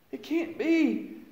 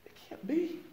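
First: High, slow "It can't be." falling away; slow high lament, letting it fall; slow, pained denial. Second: High, soft, rising "It can't be." barely breathed; pitched up and hushed, a stunned question; stunned whisper of disbelief. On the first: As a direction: drag it out as the truth sinks in. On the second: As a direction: ask it in shock as if you can't grasp it. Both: Retold or imitated. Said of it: "And I was like".

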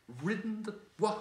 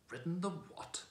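First: High, loud whinnying cry; angry horse neighing the words. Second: Scornful, pitched up high; disdainful horse retort; contempt. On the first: Acted. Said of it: "it came out as a sort of neigh". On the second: A narrator's reading. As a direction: sneer the question in disbelief. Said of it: "retorted the horse with extreme contempt".

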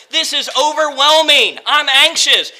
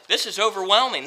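First: Higher-pitched overwhelmed cry; anxious cry. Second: Much softer, defeated; quiet despair. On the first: Preacher voicing Moses overwhelmed before God, anxious cry. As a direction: let the panic push it up and out. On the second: Preacher voicing Moses' defeated prayer, quiet despair. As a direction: let it sink, all fight gone. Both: Acted.

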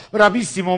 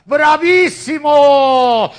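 First: Said in the usual way. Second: Loud, long drawn-out cheer; bravo shout. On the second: Real, not acted. Cheering the magic show.

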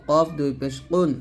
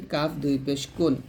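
First: Heavy, back-of-throat Q in কফ and কুন; thick qof. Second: Light K in কাফ and কুন; thin kaf. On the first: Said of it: "অবশ্যই মোটা করতে হবে". (কফ মোটা উচ্চারণে) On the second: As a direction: say কুন thinly, without the heavy qof. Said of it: "আর কাফটা পাতলা হবে এরকম". (কাফ পাতলা উচ্চারণে) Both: Shown as a demonstration.

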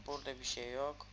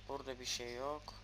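Both takes have the same delivery.

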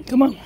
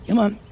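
First: Hushed urging to the dog; whispered call. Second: Said in the usual way. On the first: Real, not acted. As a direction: whisper it to the dog, a little higher. Calling the dog on a walk.

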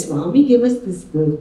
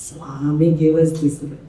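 First: Put-on "Swami gave us this girl" at normal pace, falling at the end; mimicked intonation. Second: Put-on "Swami gave us this girl" low and drawn out; mimicked intonation. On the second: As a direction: imitate it slowly, stretching "Swami" in a low voice. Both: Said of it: "He mimicked the voice".

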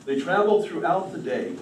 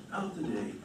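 First: Said in the usual way. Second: Softer echo. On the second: A narrator's reading. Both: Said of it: "repeated phrase".

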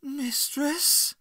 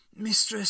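First: Very high, hurt question; high, emotional rising appeal; full of emotion. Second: High, loud call to a mistress; raised, falling-away plea; anxious appeal. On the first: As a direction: ask it rising, wounded and disbelieving. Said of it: "a wealth of emotion in that one word". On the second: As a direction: call out to her in distress. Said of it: "a wealth of emotion". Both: A narrator's reading.

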